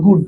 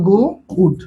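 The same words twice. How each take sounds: First: Said in the usual way. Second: "গো", pause, "উড" as two separate pieces; broken in two. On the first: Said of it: "ভাঙলে কোনো উচ্চারণ হয় না". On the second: Shown as a demonstration. Teacher breaks a one-syllable word to show students it fails, broken in two. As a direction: split "গো উড" with a clear gap between halves. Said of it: "এ আর একে ভাঙো তো".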